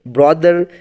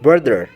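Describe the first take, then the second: First: The first vowel sounds like 'o' in 'bother'. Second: The first vowel sounds like 'u' in 'but'. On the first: The speaker calls it wrong. "ब्रॉदर basically wrong pronunciation" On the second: The speaker calls it right. "The right pronunciation is ब्रदर"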